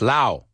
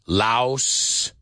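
First: The word ends without an S sound. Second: The word ends with an S sound. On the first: The speaker calls it right. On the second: The speaker calls it wrong.

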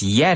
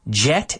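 First: The word starts with a y sound. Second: The word starts with a j sound. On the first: The speaker calls it right. "remember the pronunciation, it's yet" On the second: The speaker calls it wrong. "it's not jet. Jet, eso no se dice"

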